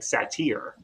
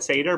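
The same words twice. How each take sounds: First: The y is said with an 'ee' sound. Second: The y is said without an 'ee' sound. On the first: Someone else said it this way. "he said sat like satyr, like the Y had an E sound" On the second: This is how the speaker always said it. "I've always said satyr"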